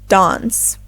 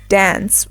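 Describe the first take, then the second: First: It has a British broader A sound. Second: It has an American short A sound.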